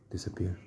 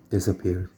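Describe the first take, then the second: First: Very soft, whispered repeat; hushed echo. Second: Said in the usual way. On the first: Real, not acted. Telling how the cat disappeared, hushed whisper. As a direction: let the word fade into a whisper. Cat vanishing, word echoed softly.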